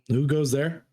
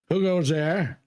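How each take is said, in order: First: It is said in a plainer, less characterful voice. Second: It is said in a put-on character voice. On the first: The speaker calls it wrong. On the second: The speaker calls it right.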